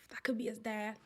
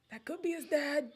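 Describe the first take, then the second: First: Soft unvoiced whisper of the thought. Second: Said in the usual way. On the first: Real, not acted. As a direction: breathe it like a secret. Whispered before repeating aloud.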